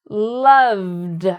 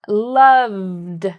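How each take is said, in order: No difference in how they are said.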